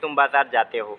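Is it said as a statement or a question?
statement. It is said as a plain statement.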